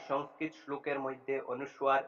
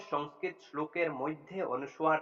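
Both takes have the same delivery.

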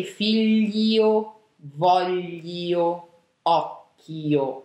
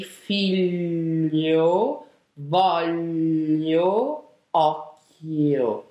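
First: "voglio" with a spelled-out i; "occhio" with a light single k; wrong pronunciation. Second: "occhio" with a long double k, slow; "voglio" as vol-yo, held and slow; correct pronunciation. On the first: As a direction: say "figlio", "voglio", "occhio" as written. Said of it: "We will not say". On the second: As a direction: say "figlio", "voglio", "occhio" slowly, the Italian way. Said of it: "We will say". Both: Shown as a demonstration.

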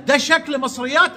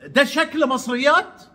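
First: Higher, puzzled rising question; mock surprised question. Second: Raised, puzzled question imitating him; mock surprised question. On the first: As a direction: imitate his disbelief, ending up. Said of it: "يقول لك". (تقليد سؤال مستغرب) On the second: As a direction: echo his astonishment with a rising tune. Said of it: "يعني مستغرب". (سؤال مستغرب بسخرية)

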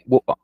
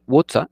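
First: "water" said British style with the T swallowed, "wo-a"; British pronunciation. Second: Said in the usual way. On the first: Shown as a demonstration. Teacher shows the British "water". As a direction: drop the T in "water": wo-a. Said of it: "y en vez de water, dicen water". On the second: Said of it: "y en vez de water".

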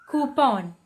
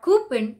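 First: Coupon with full second O, coo-pon; correct coupon. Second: Coupon with weak ending, coo-pun; mispronounced coupon; wrong coupon. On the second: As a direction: say coupon with a reduced second syllable. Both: Shown as a demonstration. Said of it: "more stress on the second O".

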